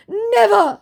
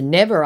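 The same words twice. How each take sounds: First: High, loud emphatic cry; mock declaration. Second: Said in the usual way. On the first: Impostor swearing he won't pretend, mock-dramatic declaration. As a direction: declare it with exclamation points. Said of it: "he declares, with exclamation points".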